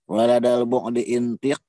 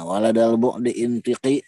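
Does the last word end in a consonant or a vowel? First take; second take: consonant; vowel. First: The last word ends in a bare consonant. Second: The last word ends with an added i vowel. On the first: The speaker calls it wrong. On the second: The speaker calls it right.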